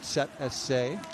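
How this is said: The letters are said with a German pronunciation. "we go with the German pronunciation here"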